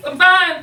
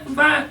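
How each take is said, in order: First: High, loud clipped insistence; too loud to be believed; forced insistence. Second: Said in the usual way. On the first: Acted. Upset after a breakup, insisting she is fine.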